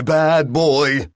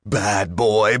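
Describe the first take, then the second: First: Louder, higher scolding burst; shrieking reprimand. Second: Said in the usual way. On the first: Acted. Reprimand shrieking in Bill's head, loud and high. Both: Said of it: "was shrieking in his head".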